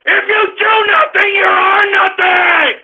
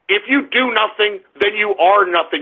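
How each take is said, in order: First: High yell, slowing on the second half; furious shout. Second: Lower, restrained delivery; low contained anger. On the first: Host demands that listeners understand, shouting furiously. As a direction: bellow it out, stretching the final words. Last take, after "Don't you understand. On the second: Host lectures idle young listeners, low and angry. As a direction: state it grimly, holding the anger down. First take of repeated angry maxim. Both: Real, not acted.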